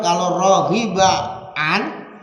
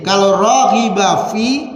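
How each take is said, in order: First: Said in the usual way. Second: Slow, rising on fi; stress on fi. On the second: Shown as a demonstration. Preacher stressing "fi" for the congregation. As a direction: lean on the word "fi", slowly. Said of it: "jadi cinta".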